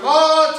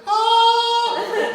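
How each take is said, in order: First: High, louder yell of pain. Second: Very high sung howl of pain; higher yell. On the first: Patient crying out as the squeeze starts, yell. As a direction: cry out in pain. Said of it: "the yell goes from". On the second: Patient howling as the squeeze gets harder, very high howl. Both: Retold or imitated.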